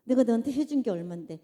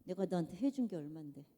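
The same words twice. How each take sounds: First: Louder, indignant demand for credit; resentful complaint. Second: Said in the usual way. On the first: Shown as a demonstration. Preacher mimicking a resentful giver, loud and indignant. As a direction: throw the favors back in their face. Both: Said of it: "이거 사랑 같아요".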